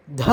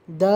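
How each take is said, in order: First: Breathy dental "dha" with a puff on த; த as a heavy "dha"; aspirated voiced த. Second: த voiced, without a puff; unaspirated voiced த. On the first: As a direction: push air through a voiced த. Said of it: "மகாபிரான்". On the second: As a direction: say த as an easy "da". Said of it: "அல்ப பிரான் த". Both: Shown as a demonstration.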